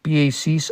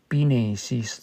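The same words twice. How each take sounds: First: The middle consonant is a Y sound. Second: The middle consonant is an N sound.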